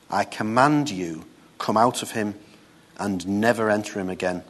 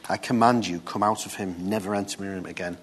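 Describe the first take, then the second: First: Said in the usual way. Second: Softer, calm command, no shouting; quiet authority. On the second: Shown as a demonstration. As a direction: command it firmly but quietly. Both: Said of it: "He didn't shout, he didn't scream".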